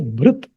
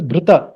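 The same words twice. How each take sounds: First: Bhrit cut off on the t; correct pronunciation. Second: Bhrita with an added final a; wrong pronunciation. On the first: Teacher gives correct form, bhrit ending on t. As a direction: end bhrit on the consonant, no final vowel. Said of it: "we will pronounce it as". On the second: Teacher shows what to avoid, bhrita with final a. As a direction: sound a vowel after the t in bhrita. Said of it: "we will not pronounce it as". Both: Shown as a demonstration.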